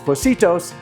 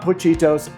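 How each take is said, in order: First: The middle consonant is an s sound. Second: The middle consonant is a ch sound. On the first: The speaker calls it right. "But it is Pocitos" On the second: The speaker calls it wrong. "not Pochitos"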